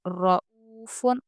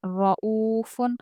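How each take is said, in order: First: रऊफुन said with a thin, light ra, the way it should not be; wrong thin ra. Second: Slow रऊफुन with a full, thick ra; correct heavy ra. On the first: Teacher demonstrating the wrong, thin ra to students. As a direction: show the mistake: रऊफुन with a thin ra. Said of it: "रऊफुन नहीं बोलेंगे". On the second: Teacher reciting the correct heavy ra after the wrong one. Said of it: "रॉ पुर पढ़ेंगे". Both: Shown as a demonstration.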